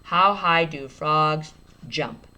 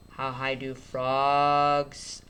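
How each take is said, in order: First: Steady slow reread; slow read. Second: Drawn-out phonics read; stretched out. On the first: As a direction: read it back word by word. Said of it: "I just add an S". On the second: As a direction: sound it out slowly. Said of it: "I'm gonna stretch it out". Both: Shown as a demonstration.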